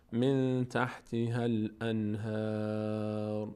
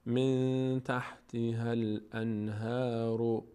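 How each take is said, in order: First: من تحتها الانهار ending on a still ر; pausal form. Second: من تحتها الانهار ending in a short u; connected form. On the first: Teacher showing the pause reading. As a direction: stop on الانهار with no vowel. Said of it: "در هنگام وقف". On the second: Teacher showing how to continue on. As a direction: carry a vowel after ر of الانهار. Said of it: "اگر خواسته باشیم ادامه بدیم". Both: Shown as a demonstration.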